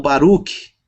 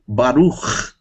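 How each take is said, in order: First: Baruch ending in a hard k plus an added i; wrong Baruch. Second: Baruch ending in a throaty ch sound; Baruch with final ch. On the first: Teacher shows the mistake students make with Baruch. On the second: Teacher models the right ending of Baruch. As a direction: end Baruch with a rasped ch, no vowel after. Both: Shown as a demonstration. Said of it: "e não Baruch".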